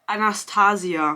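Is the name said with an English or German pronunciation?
German. The name is said with a German pronunciation. "In German"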